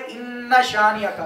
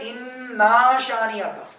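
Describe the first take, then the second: First: The vowel after the double n is short. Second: The vowel after the double n is drawn out long. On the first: Your enemy is the one who will be cut off. The speaker calls it right. "तो फिर तो सही तर्जमा पढ़ रहा है" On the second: Indeed we are your enemies. The speaker calls it wrong. "जिस तरह आमतौर पर पढ़ा जाता है"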